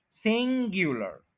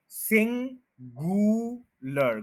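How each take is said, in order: First: सिंगुलर as "SIN-gyoo-lar" with a y glide; correct gyu sound. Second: सिंगुलर with a plain "goo", no y; wrong goo sound. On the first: Teacher modelling the right सिंगुलर. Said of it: "ग्यू है". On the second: Teacher showing the wrong सिंगुलर. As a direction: drawl सिंगुलर slowly as "sin-goo-lar". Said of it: "गु नहीं है". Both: Shown as a demonstration.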